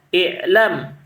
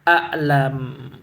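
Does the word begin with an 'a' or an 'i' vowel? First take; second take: i; a. First: The first vowel is an 'i' sound. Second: The first vowel is an 'a' sound. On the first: It means a notification for the muftis. "membaca dengan kasrah" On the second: It means the leading figures among the muftis. "membaca dengan fathah"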